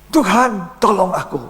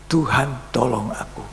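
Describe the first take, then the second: First: High, urgent plea as he sinks; panicked cry for help. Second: Said in the usual way. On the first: Retold or imitated. Sinking Peter crying out to the Lord, high and urgent. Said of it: "dia kaget, dia bilang". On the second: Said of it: "Cuma doa yang singkat".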